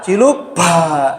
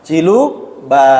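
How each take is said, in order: First: Very slow "cilu ba" with a breathy "ba" like "pa"; wrong aspirated ba. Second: Quick playful "Cilu ba" with a clean, unaspirated "ba"; right peekaboo ba. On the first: Teacher shows the wrong breathy "ba" in peekaboo. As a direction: drag out "cilu ba" and push air on "ba". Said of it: "Yang salah". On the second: Teacher shows the right "ba" with a child's peekaboo. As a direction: say "Cilu ba" like surprising a child, no puff. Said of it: "itu yang benar itu". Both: Shown as a demonstration.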